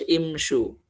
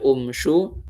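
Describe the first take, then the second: First: The word begins with an 'i' vowel. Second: The word begins with a 'u' vowel. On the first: The speaker calls it right. "tapi dibaca imshu" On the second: The speaker calls it wrong. "nggak dibaca umshu"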